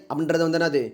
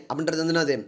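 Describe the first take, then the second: The two takes are said the same way.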